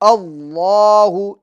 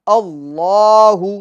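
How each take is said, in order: Both takes have the same delivery.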